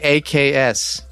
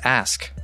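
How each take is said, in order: First: The word ends with a 'ks' sound. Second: The word ends with an 'sk' sound. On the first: This is the older way of saying it. "It used to be AKS" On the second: This is the current way of saying it. "But now it's ask"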